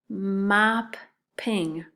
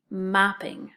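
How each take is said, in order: First: Mopping said slowly with a long double P; slow clear reading. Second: Said in the usual way. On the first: Shown as a demonstration. Teacher reading the word Mopping to the class. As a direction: read Mopping carefully, leaning on the PP. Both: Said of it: "The first word?".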